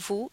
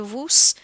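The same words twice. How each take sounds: First: The final S sound is silent. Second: The final S sound is pronounced. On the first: The speaker calls it right. "we keep that nous and vous" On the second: The speaker calls it wrong. "We're not going to say vous"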